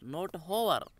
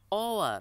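First: The word begins with an audible h sound. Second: The word begins directly with a vowel sound. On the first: The speaker calls it wrong. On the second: The speaker calls it right. "Hour starts with the vowel sound"

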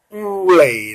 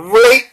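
First: The final syllable does not have a rising tone. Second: The final syllable has a rising tone.

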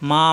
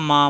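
No difference in how they are said.

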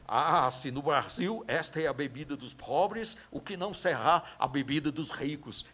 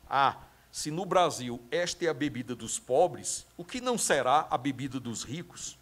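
First: It is said with an imitated German accent. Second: It is said in the speaker's ordinary Brazilian accent.

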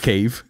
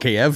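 First: The name is said in the newer Kyiv form. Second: The name is said in the older Kiev form. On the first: This is how people say it now. The speaker calls it right. "from now On, it's Kyiv" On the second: This is how people said it for years. The speaker calls it wrong. "It's called Kyiv for years"

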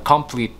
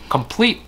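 First: The stress is on the first syllable. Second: The stress is on the second syllable. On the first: The speaker calls it wrong. "chứ không phải là complete" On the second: The speaker calls it right. "Complete nhấn vào âm thứ hai"

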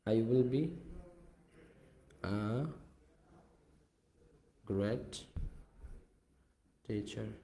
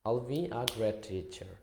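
First: I will is said as two full words. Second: I will is shortened to one syllable, I'll. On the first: "আই উইলটাকে আল be" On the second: "আমি এটাকে short ফর্মে, contraction ফর্মে use করলাম"

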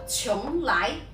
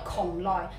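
First: The name is said with Mandarin pronunciation. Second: The name is said with Cantonese pronunciation. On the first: "普通話讀邛崃" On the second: "粵語讀邛崃"

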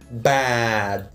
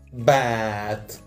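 Both takes have the same delivery.

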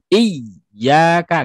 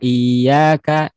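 First: The ya syllable is pressed hard and forcefully. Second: The ya syllable is flat, without any lift. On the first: "tidak boleh terlalu ditekan" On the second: "ketemu dengan iya itu seperti nanti iyanya sukun"

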